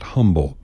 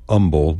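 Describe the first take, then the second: First: "humble" with a clear h. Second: "umble" with no h, a bit slower; umble without h. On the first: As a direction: sound the h: "humble". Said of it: "not humble". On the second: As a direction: drop the h: "umble". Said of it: "We also say umble". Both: Shown as a demonstration.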